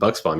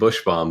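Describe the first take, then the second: First: The middle of the name has a 'ks' sound. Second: The middle of the name has an 'sh' sound. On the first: The speaker calls it right. "you got that right" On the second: The speaker calls it wrong. "I usually get Bushbaum"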